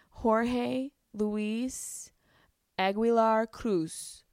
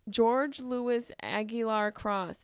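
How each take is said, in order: First: The name is said with Spanish sounds. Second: The name is said with English sounds. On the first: The speaker calls it right. "Oh shit, did I nail it?" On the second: The speaker calls it wrong. "Am I saying it right? I can't even"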